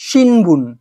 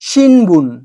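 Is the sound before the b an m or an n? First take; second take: n; n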